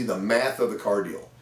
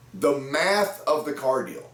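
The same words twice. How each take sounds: First: Said in the usual way. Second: Slow, weighty stress on math; slow emphasis. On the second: Shown as a demonstration. Sales coach to his viewers, slow stress on math. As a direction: spell out the math of the car deal slowly, hitting math. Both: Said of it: "Isn't that crazy".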